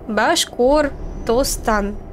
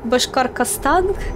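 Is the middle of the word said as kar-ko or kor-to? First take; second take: kor-to; kar-ko. First: The middle sounds like kor-to. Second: The middle sounds like kar-ko. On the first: The speaker calls it right. "сейчас я говорю правильно" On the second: The speaker calls it wrong. "Я раньше говорила как-то Башкаркостан. Короче, я путала"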